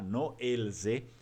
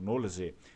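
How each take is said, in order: First: The words are said as separate pieces. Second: The words are run together into one. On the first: The speaker calls it wrong. "ninguém vai pronunciar no elze" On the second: The speaker calls it right. "mas sim tudo junto"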